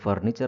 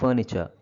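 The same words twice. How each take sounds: First: The r sounds are clearly pronounced. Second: The r sounds are left silent. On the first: This is how it is said in Kannada. "ಕನ್ನಡದಲ್ಲಿ ಹೇಳ್ಬೇಕಾದ್ರೆ" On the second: This is how it is said in English. "ಇಂಗ್ಲೀಷಲ್ಲಿ ಹೇಳ್ಬೇಕಾದ್ರೆ ... ಎರಡು ಕಡೆನೂ ಆರ್ silent"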